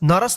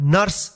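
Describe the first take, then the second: First: A short vowel is inserted between r and s. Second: The r joins the s with no vowel between. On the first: The speaker calls it wrong. "नरस नहीं पढ़ेंगे" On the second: The speaker calls it right. "स के ऊपर रेफ है तो क्या होगा नर्स"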